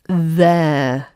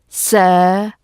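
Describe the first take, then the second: First: The word begins with a th sound. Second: The word begins with an s sound. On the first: The speaker calls it right. "It's there" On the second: The speaker calls it wrong. "Don't use a d or a s or a v sound instead of this th sound"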